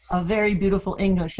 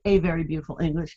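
First: Said in the usual way. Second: "a" pronounced as a full "ay"; article as "ay". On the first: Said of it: "I say a very beautiful English". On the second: Shown as a demonstration. Teasing her father's Spanish-influenced English, "a" said as "ay". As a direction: say "a" like the letter A, not "uh". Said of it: "in Spanish we always say a".

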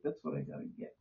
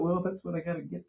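First: Unvoiced resigned whisper; whispered to himself. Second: Said in the usual way. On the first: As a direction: breathe it out, resigned. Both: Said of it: "I thought".

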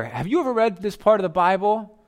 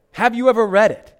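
First: Said in the usual way. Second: "Have you ever read it?" pushed higher and louder, stress on "you"; pointed question. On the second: Shown as a demonstration. Pastor presses the temple leaders with a pointed, louder question. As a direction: jab the question at them.

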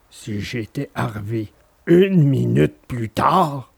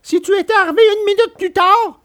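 First: Lower, slow easygoing dog voice; calm dog musing. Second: Much higher, scared puppet voice; frightened puppet. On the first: Acted. Alidor musing on arriving late, low calm dog voice. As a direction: muse on it lightly, unconcerned. Dog's version of the line. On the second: A narrator's reading. Pinocchio answering Alidor, high frightened voice. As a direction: shudder at the thought of being late. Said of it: "qui tremblait encore de peur".

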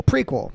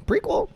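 First: Said in the usual way. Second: High questioning. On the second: Real, not acted. Questioning the word.

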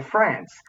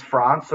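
First: France with a short flat a, as in "ant"; Aussie "France", rhyming with "pants"; Australian pronunciation. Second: France with a long open "ah", French-style; "France" said as "Frahnce"; proper pronunciation. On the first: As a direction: say France with the vowel of "cat". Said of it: "we say in Australia". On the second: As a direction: say France with the vowel of "father". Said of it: "the proper way to say it". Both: Shown as a demonstration.

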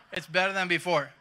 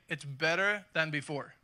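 First: Louder, through a laugh. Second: Said in the usual way. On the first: Real, not acted. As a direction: repeat it laughing at the joke.

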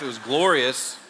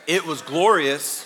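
First: Said in the usual way. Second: Slower, louder, with a laugh; laughing brag. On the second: Shown as a demonstration. Pastor to congregation, boasting of his afro, laughing. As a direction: savour the word, laughing at himself.

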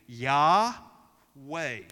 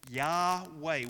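First: Yahweh loud, ya breathed out and weh breathed in; breathed name. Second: Said in the usual way. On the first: Shown as a demonstration. Pastor showing how the name is breathed, loud breath sounds. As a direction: let Yahweh ride out on the breath and back in. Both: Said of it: "you breathe out, then you breathe in".

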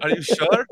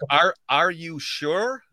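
First: Copying Yorkshire "sure", a little louder; imitated Yorkshire accent. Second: Slow American "sure" with full R; own American accent. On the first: Host repeats co-host's question, imitation Yorkshire accent. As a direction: have a go at Yorkshire "Are you sure". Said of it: "I'm trying to repeat yours". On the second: Shown as a demonstration. Host shows his own version slowly, American accent. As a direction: draw out ARE and SURE in American. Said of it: "For me, it'd be like".

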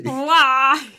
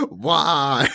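First: Loud echoing why; anguished why. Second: Loud despairing why; anguished why. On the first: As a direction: wail it back. Echo of why. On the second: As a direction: cry out to the void. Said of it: "So you're just like". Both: Retold or imitated.

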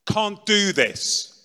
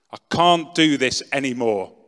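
First: High, slow, loud and drawn-out; terrified cry. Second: Loud despairing cry; shouting to the ceiling. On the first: Terrified on the floor, crying out slowly to the ceiling. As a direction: drag it out, terrified and broken. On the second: Alone on the floor, shouting at the ceiling in despair. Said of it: "So I shouted out at the ceiling". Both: Retold or imitated.

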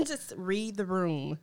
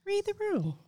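First: Said in the usual way. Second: High teasing sing-song Read the room. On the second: Shown as a demonstration.

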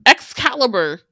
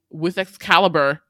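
First: Excalibur repeated much higher and louder, falling at the end; excited emphasis. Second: Said in the usual way. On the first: Real, not acted. Host hyping the sword as Tedros strikes, loud emphasis. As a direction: punch Excalibur the second time, higher and louder.

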